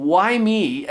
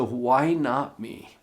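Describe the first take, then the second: First: Said in the usual way. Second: "Why not me?" slowly, a pause after each word; slow, stress on why. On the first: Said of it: "If you stop asking". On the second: Shown as a demonstration. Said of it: "the question changed for me".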